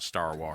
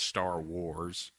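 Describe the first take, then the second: First: 'Wars' rhymes with 'Star', sharing its vowel. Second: 'Wars' keeps its own vowel, unlike 'Star'. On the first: "it comes out Star Wars" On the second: "I know it's Star Wars"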